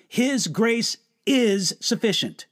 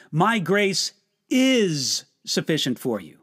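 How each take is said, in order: First: "is" stressed, the rest steady. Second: "is" pressed in the middle; stress on is. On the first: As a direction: hit "is" to say it holds now. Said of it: "It is right now". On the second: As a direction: lean on "is". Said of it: "look at it this way". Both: Shown as a demonstration.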